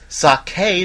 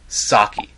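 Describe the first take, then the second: First: The word has a Japanese-style pronunciation. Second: The word has an American-style pronunciation. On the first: The speaker calls it right. "It's pronounced sake because there's an accent over that damn E" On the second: The speaker calls it wrong. "American pronunciations that just anger me. Like, sake"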